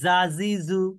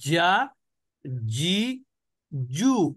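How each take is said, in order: First: The j sound is light and thin. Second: The j sound is hard and strong. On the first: The speaker calls it wrong. "এখন পাতলা কিভাবে হতো?" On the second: The speaker calls it right. "শক্ত উচ্চারণ হবে"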